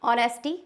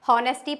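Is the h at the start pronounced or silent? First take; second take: silent; pronounced. First: The starting h sound is silent. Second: The starting h sound is pronounced. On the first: The speaker calls it right. "हमारा एच silent होता है" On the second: The speaker calls it wrong. "हॉनेस्टी पढ़ते हैं? No, it's totally wrong"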